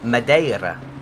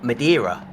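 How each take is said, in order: First: It is said with a Portuguese pronunciation. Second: It is said with an English pronunciation. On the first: The speaker calls it right. "They pronounce it in Portugal as Madeira" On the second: The speaker calls it wrong. "it's not Madeira"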